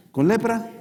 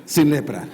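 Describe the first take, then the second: First: LEPRA lifted high as a question; playful question. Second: SIN hit louder, LEPRA falling; playful answer. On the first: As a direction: pitch up on "lepra", as if testing a trick. (pregunta juguetona, "lepra" aguda) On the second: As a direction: punch "sin" and drop back down on "lepra". (respuesta juguetona, "lepra" cae) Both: Acted. Moisés juega con el milagro.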